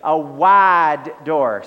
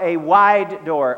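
First: It is said in a Southern US accent. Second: It is said in a general, unmarked accent.

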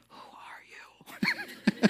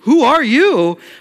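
First: It is said in a quiet whisper. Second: It is said in a startled, alarmed voice.

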